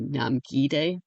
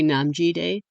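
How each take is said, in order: First: The second syllable starts with a G sound. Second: The second syllable starts with a J sound. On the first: The speaker calls it right. "it would be Namgi Day because of squishing their names together" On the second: The speaker calls it wrong. "I always say Namji Day"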